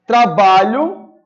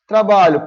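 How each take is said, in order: First: "Trabalho" stretched slowly, loud, pitch rising at the end like a question; drawn-out rising trabalho. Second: "Trabalho" said short and loud, pitch falling to a full stop; firm falling trabalho. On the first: Teacher's first try at the example word, stretched and rising. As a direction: draw out "Trabalho" and lift it at the end. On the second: Teacher redoes the example word for students, firm and falling. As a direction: say "Trabalho" crisply as a complete statement. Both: Shown as a demonstration. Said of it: "Opa, volta lá".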